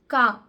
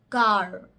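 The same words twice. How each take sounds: First: The R sound at the end is dropped. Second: The R sound at the end is clearly pronounced. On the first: "The R's are not totally pronounced" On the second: "more rolled and pronounced very clearly"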